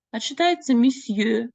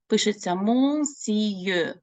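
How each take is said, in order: First: Monsieur said the French way, higher; teacher showing the real sound; French reading. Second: Monsieur read letter by letter, slowly; teacher showing the spelling; spelled reading. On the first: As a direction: say monsieur as a French speaker would. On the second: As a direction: sound out monsieur as it is written. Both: Shown as a demonstration.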